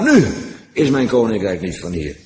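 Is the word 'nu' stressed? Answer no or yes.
yes. The word nu is stressed. It is so now, but at another time it will be otherwise. "En andere keer dus wel"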